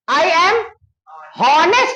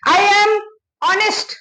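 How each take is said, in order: First: Honest starts with an audible h sound. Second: Honest starts with a vowel, no h sound. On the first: The speaker calls it wrong. "इसको हॉनेस्ट नहीं पढ़ते" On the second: The speaker calls it right. "ऑनेस्ट पढ़ते"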